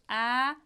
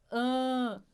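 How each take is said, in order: First: The vowel is open and oral. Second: The vowel is closed and nasal. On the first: "A aberto" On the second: "o som fechado, anasalado"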